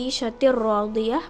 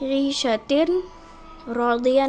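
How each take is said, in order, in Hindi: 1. n दोहरे r में मिल जाता है। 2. n को r से पहले अलग से बोला जाता है। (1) "बल्कि ईशतिर रौदिया पढ़ेंगे" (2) "नहीं पढ़ेंगे"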